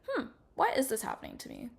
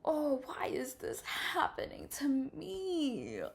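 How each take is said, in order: First: It sounds curious and wondering. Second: It sounds insecure and self-pitying.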